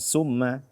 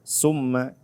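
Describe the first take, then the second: First: The word begins with a hissing 's' sound. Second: The word begins with a hissing 's' sound.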